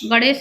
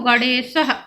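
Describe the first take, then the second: First: The word ends without a final breathy 'ah'. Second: The word ends with a final breathy 'ah'. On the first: The speaker calls it wrong. "गणेश नहीं पढ़ेंगे इसको" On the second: The speaker calls it right. "दो विसर्ग इसलिए"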